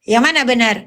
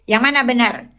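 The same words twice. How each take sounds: Both takes have the same delivery.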